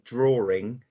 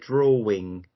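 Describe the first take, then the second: First: An r sound is inserted before the -ing. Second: No r sound is inserted before the -ing. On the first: "putting the intrusive r sound in there" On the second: "and not put the intrusive"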